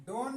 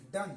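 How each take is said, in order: First: डोन with an o as in bone; wrong long o. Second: डन with a short uh, as in sun; short u sound. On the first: Teacher warning against misreading done, डोन with long o. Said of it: "डोन नहीं पढ़ेंगे". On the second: Teacher showing how done is read, डन with short uh. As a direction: say डन with a short open vowel. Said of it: "इसको क्या पढ़ेंगे". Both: Shown as a demonstration.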